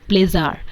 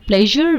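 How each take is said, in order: First: It is said with mother-tongue-influenced pronunciation. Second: It is said with standard English pronunciation.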